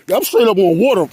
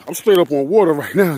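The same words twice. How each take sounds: First: Loud, high excited shout; hyped about standing on water. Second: Said in the usual way. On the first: Real, not acted. Excited on the ice.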